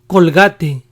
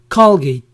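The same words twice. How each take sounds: First: It is said with a Spanish pronunciation. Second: It is said with an English pronunciation. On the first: "We pronounced these brands as" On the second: "the English versions are"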